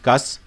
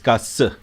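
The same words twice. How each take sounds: First: The S sound is short and single. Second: The S sound is long and doubled. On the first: The speaker calls it wrong. "It's not just qas" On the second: The speaker calls it right. "It's got a double S sound"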